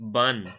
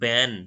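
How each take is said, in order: First: The syllable has a central 'u'-like vowel. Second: The syllable has a front, flat 'a' vowel. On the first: "British প্রোনাউন্সিয়েশনে এটাকে" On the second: "আমেরিকানটা শুনি একটু difference আসছে"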